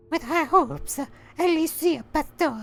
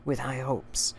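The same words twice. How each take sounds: First: Very high mock sign-off; comic falsetto letter closing; silly high voice. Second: Said in the usual way. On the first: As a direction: squeak out the sign-off.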